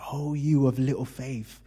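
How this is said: It sounds tender and affectionate.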